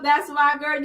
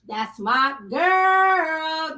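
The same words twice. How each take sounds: First: Said in the usual way. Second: Sung praise. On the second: Real, not acted. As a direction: croon it slowly like a little tune. Praises a viewer, sings it.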